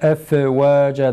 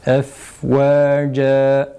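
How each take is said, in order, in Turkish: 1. F, nefes olmadan kısa kesilir. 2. F'nin içinden nefes akar. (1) "F F ve efvâca dediğimiz zaman yanlış okunur" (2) "Nefes akıyoruz. Fa harfini okurken"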